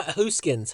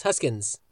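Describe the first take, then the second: First: "Hooskins" with a long oo in the first syllable; "Hooskins", first vowel as in goose; long OO variant. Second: "Huskins" with a short uh in the first syllable; "Huskins", first vowel as in husk; short U variant. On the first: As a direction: say "Hooskins" as HOOS-kins, drawn out. Two versions of a surname. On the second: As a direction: say "Huskins" as HUSS-kins. Second version of the surname. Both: Shown as a demonstration.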